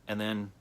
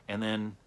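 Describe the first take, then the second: Both takes have the same delivery.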